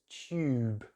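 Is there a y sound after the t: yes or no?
yes. A small y sound follows the t. "we put this little Y sound in between"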